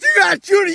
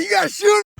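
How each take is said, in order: First: High, loud urging; urgent shout. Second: High, desperate shout; frantic yell. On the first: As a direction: push him to fire now. Urging to shoot. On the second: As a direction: scream the order at him. Repeated louder. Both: Acted.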